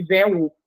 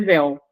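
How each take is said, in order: First: "véu" wrongly broken in two, vé-u; "véu" pulled apart as vé-u; split into syllables. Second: Said in the usual way. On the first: Shown as a demonstration. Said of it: "não posso fazer separação silábica de véu". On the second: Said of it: "vai ser véu".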